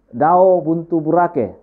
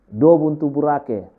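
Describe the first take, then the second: First: The first word is said as dao. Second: The first word is said as do. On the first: "dao juga oke" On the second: "kalau dia mengatakan do"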